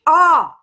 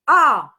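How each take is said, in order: First: The vowel is said with an open sound. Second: The vowel is said with an open sound.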